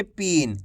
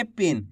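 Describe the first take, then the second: First: "पीन" with a stretched ee; drawn-out long i. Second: "पिन" with a quick, short i; short i vowel. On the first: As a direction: hold the long vowel in "पीन". ("पीन" में बड़ी ई, खींचकर) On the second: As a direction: say "पिन" without stretching the vowel. ("पिन" में छोटी इ, बिना खींचे) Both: Shown as a demonstration. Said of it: "ऐसे नहीं पढ़ेंगे खींच के".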